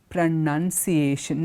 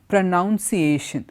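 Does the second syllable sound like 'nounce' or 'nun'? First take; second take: nun; nounce. First: The second syllable sounds like 'nun'. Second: The second syllable sounds like 'nounce'. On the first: The speaker calls it right. "but pronunciation. Noun alla, none, pronunciation" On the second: The speaker calls it wrong. "and that is wrong"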